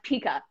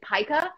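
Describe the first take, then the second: First: The first vowel sounds like 'ee'. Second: The first vowel sounds like 'eye'. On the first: The speaker calls it wrong. "I thought it was pronounced pica" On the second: The speaker calls it right. "but it's actually pica"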